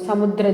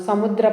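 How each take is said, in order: No difference in how they are said.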